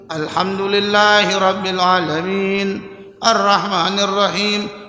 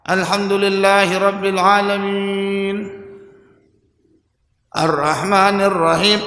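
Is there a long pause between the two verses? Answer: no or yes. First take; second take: no; yes. First: The two verses flow on without a long pause. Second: A long pause separates the two verses. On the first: The speaker calls it right. "Jadi jangan jeda yang lama" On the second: The speaker calls it wrong. "Ini jeda nih"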